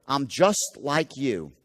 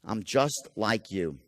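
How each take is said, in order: First: Slow, even "I'm just like you" with stress on "just"; a friendly, unhurried bond; likability tone. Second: Slow, lower and softer, "just" gently stressed; an intimate hush of kinship; soft likability. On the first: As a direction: lean on "just" and take your time. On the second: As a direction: drop into a soft, confiding "I'm just like you". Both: Shown as a demonstration. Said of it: "something called likability".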